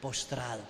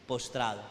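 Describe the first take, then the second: First: Low spoken answer. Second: Said in the usual way. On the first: Shown as a demonstration. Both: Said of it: "¿qué?".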